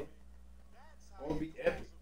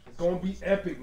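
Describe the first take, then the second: First: Slow, hushed whisper. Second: Said in the usual way. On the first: Pretend. Vlogger whispering a prediction about the Bears, slow and hushed. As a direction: breathe it out like a secret.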